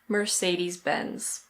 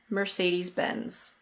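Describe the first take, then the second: First: It is said in an American accent, r pronounced. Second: The same.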